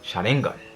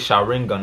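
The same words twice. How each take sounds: First: It is said with a Japanese accent. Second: It is said with an American accent. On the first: "in the Japanese accent you'd be like" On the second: "I'm saying in the American accent"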